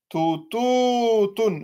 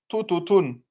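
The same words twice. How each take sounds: First: The ou vowel is drawn out long. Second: The ou vowel is kept short. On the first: The speaker calls it right. "vous mettez bien la prolongation" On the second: The speaker calls it wrong. "et non pas ... Ça serait faux"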